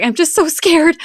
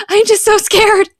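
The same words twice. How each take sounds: First: Put-on high, whimpering little girl's voice; high, trembling child's fear; scared daughter. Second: Put-on higher, louder wailing child; higher, louder, near-crying little girl; more scared daughter. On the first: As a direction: voice a frightened child close to tears. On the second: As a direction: let the child's fear spill over. Daughter voiced, panicking.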